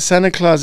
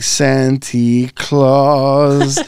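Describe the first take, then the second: First: It is said in a plain, harmless tone. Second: It is said in a menacing, villainous tone. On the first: It refers to the friendly gift-giver. "you never think of nothing evil" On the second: It suggests someone with claws. "when he says, he's like, Santa Claus. Like, if he has claws"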